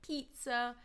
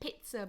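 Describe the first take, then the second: First: The first vowel is a long 'ee' sound. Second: The first vowel is a short 'ih' sound. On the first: The speaker calls it right. "the letter I is pronounced E" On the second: The speaker calls it wrong. "We don't say pizza"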